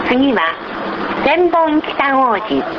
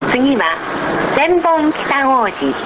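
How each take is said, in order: Both takes have the same delivery.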